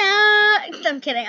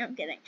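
First: Higher, louder, slow I'm kidding; drawn-out playful I'm kidding. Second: Much softer, lower I'm kidding; quiet trailing I'm kidding; soft mutter. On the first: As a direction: stretch it out big and loud. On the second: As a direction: drop it to almost nothing. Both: Acted. Jokes after fake scare.

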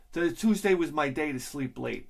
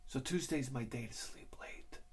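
First: Said in the usual way. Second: Hushed whisper. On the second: Shown as a demonstration. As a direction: breathe the words, no voice. Repeats line as whisper.

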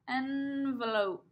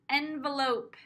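First: Envelope said slowly and deliberately; slow repeat. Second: Said in the usual way. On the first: Shown as a demonstration. Teacher repeating the word slowly for preschoolers. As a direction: draw the word out for little ears. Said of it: "teacher repeats slowly". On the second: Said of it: "Eh, eh, envelope".

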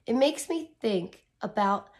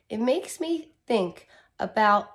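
No difference in how they are said.

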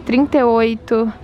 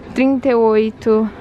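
No difference in how they are said.

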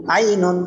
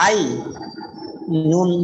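First: Ainun loud, in one piece; joined-up word. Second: আই and নুন split by a long pause; each part sounded out alone, আই, নুন; syllable by syllable. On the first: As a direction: blend Ainun without a break. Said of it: "ভাঙ্গা উচ্চারণও করবেন". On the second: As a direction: break it up: আই... নুন. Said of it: "একটা একটা করে উচ্চারণ করবেন". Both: Shown as a demonstration.

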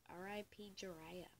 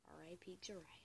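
First: Said in the usual way. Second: Soft whispered R I P Jiraiya. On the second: Shown as a demonstration. Mourning the manga character Jiraiya, whispered. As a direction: breathe it out as a hushed tribute. Repeats phrase, second whispered.

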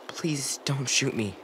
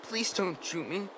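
First: Slow, drawn-out begging; slow plea. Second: High, soft frightened plea; scared plea. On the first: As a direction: plead slowly, weighing each word. Repeated plea, slower take. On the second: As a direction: beg him not to shoot, barely aloud. Frightened boy begging not shot. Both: Acted.

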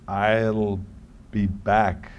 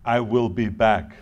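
First: "I'll be back", with "I'll" run into one word; contracted. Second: "I will be back", with "I will" as two separate words; no contraction. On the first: Actor showing the scripted line to his director, "I'll" contracted. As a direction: say "I'll" as one drawn syllable, then "be back". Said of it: "it sounds funny when I say". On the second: Actor showing the line his way, "I will" uncontracted. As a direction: say "I will" in full, slowly. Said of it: "how would that line have sounded". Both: Shown as a demonstration.

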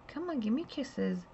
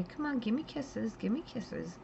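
First: Coaxing pet talk. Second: High, soft coo to a pet lizard; coaxing pet talk. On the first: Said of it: "I turned to her and I said". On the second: Owner cooing to her bearded dragon, high and soft. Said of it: "you say". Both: Retold or imitated. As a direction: sweet-talk the dragon for a kiss.

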